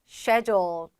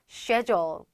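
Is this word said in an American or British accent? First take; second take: British; British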